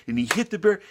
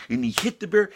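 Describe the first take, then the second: No difference in how they are said.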